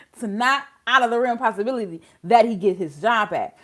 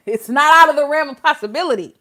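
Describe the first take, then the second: First: Said in the usual way. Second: Said through a laugh. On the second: Real, not acted.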